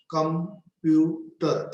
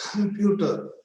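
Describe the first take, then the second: First: "computer" slowly broken as com-pu-ter; split in three syllables. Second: Said in the usual way. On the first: Shown as a demonstration. Teacher showing three syllables to learners, broken apart. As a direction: say "computer" in three separate beats. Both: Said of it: "three syllables".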